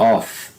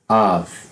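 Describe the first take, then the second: First: The word ends with an F sound. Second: The word ends with a V sound. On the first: The next word begins with a consonant. "aqui fica com som de F mesmo" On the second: The next word begins with a vowel. "com som de V"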